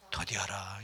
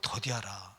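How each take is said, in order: First: 더디하라 breathed out as a soft whisper; whispered verse. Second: Said in the usual way. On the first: Shown as a demonstration. Preacher reading the verse to the congregation, whispering 더디하라. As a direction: let 더디하라 fade into a whisper. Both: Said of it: "듣기는 속히 하되 말하기는".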